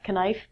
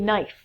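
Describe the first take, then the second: First: A K sound is heard before the N. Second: The word starts directly with an N sound. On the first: The speaker calls it wrong. "not knife" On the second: The speaker calls it right. "Next one is a knife"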